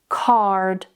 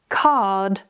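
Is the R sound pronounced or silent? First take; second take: pronounced; silent. First: The R sound is clearly pronounced. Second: The R sound is not pronounced. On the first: "with more of an American accent" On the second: "with more of a British accent"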